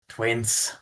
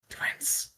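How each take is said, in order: First: The word is said more loudly. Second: The word is said very quietly. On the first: The speaker calls it right. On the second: The speaker calls it wrong.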